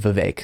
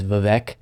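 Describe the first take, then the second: First: The second syllable rhymes with cake. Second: The second syllable does not rhyme with cake. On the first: The speaker calls it right. "It is Vivek" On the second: The speaker calls it wrong. "mispronounced it as Vivek"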